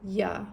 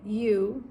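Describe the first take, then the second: First: 'You' is reduced to a weak 'ya'. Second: 'You' is said in full with a clear vowel.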